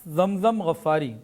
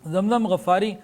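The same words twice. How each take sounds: No difference in how they are said.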